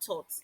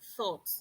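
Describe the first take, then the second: First: The word begins with a hard t sound. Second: The word begins with a soft th sound. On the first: The speaker calls it wrong. "It is not thought" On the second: The speaker calls it right. "it is thought"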